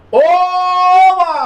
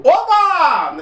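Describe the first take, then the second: First: High, loud, bright cheer; excited cheer. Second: Said in the usual way. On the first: Shown as a demonstration. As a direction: really celebrate it. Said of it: "não é assim não". (oba empolgado, alto e agudo) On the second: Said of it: "Oba não, não é assim não".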